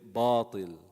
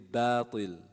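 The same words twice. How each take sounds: First: The b is heavy, with the tongue raised. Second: The b is light, with the tongue lowered. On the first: The speaker calls it wrong. "people raise the tongue for both letters. So they'll say batil" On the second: The speaker calls it right. "ba has which quality? ... istifal ... the tongue is lowered. It's a light letter. So that means you will say batil"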